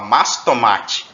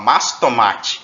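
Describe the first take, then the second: First: The word 'de' is dropped entirely. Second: The same.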